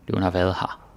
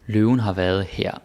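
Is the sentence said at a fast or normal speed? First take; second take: fast; normal. First: The sentence is said quickly. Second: The sentence is said at a normal speed.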